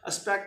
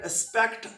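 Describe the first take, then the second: First: The final t is almost not pronounced. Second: The final t is clearly pronounced. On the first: "अब मैंने तकरीबन इसको pronounce नहीं किया" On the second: "अब मैंने केयरफुल डेलिब्रेटली केयरफुल प्रोनाउंस किया है टी"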